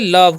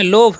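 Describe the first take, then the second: First: The vowel is said as a short 'uh'. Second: The vowel is said as a long 'o'. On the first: The speaker calls it right. "आपको पढ़ना है इसे लव" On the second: The speaker calls it wrong. "नहीं जी"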